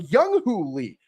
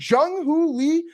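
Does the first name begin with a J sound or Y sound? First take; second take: Y sound; J sound. First: The first name begins with a Y sound. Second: The first name begins with a J sound. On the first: The speaker calls it wrong. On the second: The speaker calls it right.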